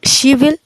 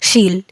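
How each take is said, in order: First: Will is said as a separate full word. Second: Will is reduced to an l sound.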